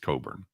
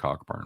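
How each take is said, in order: First: The first syllable sounds like 'co'. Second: The first syllable sounds like 'cock'. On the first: The speaker calls it right. "It's Coburn" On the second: The speaker calls it wrong. "you got to stop saying Cockburn"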